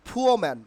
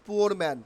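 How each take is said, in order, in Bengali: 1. প্রথম p আসপিরেটেড, বাতাসের ফুঁ সহ। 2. প্রথম p সাধারণ, বাতাসের ফুঁ ছাড়া। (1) "he is a ফুয়ো man" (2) "not পুয়োর man"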